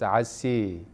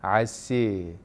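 The two takes are said the same way.

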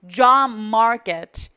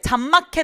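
First: English sounds with strongly pushed-out lips. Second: Korean-style sounds with flat, unrounded lips. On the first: The speaker calls it right. "과도하게 입문을 만들어서 발음을 하고 있는데" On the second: The speaker calls it wrong. "잡마켓 아니고"

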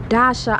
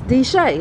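First: The name ends with an 'ah' sound. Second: The name ends with an 'ay' sound. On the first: This is how the speaker habitually reads the name. The speaker calls it wrong. "I always say Dasha" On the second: This is the name the company actually uses. The speaker calls it right. "It's D'Shay"

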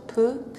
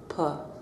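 First: The vowel is said with rounded lips. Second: The vowel is said with unrounded lips. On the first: "with your lips rounded"

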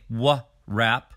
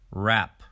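First: A W sound is heard before the R. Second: The word starts directly with the R sound. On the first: The speaker calls it wrong. "We do not say w-rap" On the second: The speaker calls it right. "we say rap"

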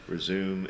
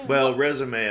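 First: It is said with an English pronunciation. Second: It is said with a French pronunciation. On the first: "is the English" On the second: "is the French pronunciation"

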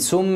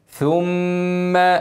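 First: The first consonant is an s sound. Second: The first consonant is a th sound. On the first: The speaker calls it wrong. "اوعى تخليها سين ثم، غلط" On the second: The speaker calls it right. "لسانك يلمس سنانك"

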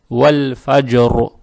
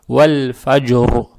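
The two takes are said the same way.

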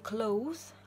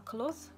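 First: The vowel glides as a diphthong. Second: The vowel is a plain short o. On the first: The speaker calls it wrong. "не cloth" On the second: The speaker calls it right. "а cloth"

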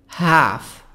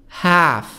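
The two takes are said the same way.

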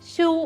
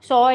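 First: The word is said with an oo vowel. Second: The word is said with an oh vowel. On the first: The speaker calls it wrong. "എഴുതുമ്പം ഷൂ എന്നേ നമ്മൾ വായിക്കുള്ളൂ" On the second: The speaker calls it right. "ഉച്ചാരണം വരുമ്പോൾ സോ എന്ന് തന്നെ പറയണം"

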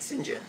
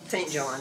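First: It is said the way the British say it. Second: It is said in a plain, non-British way.

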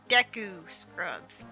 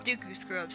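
First: The first vowel sounds like 'e'. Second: The first vowel sounds like 'oo'. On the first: "they're supposed to be pronounced Deku Scrubs" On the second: "I call them Dooku Scrubs"

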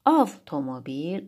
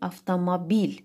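First: The stress is on the first syllable. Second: The stress is on the fourth syllable. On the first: "Hər birini ayrı-ayrılıqda qüvvətli" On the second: "vurğu artıq sonuncu hecanın üzərinə düşür"

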